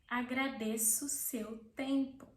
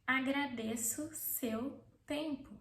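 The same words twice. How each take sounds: Both takes have the same delivery.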